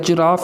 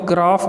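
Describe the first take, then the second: First: The first vowel is kept, said like 'jiraaf'. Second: The first vowel is dropped, said like 'graf'. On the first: The speaker calls it right. "जिराफ इसको कहते हैं" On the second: The speaker calls it wrong. "वो गलत है"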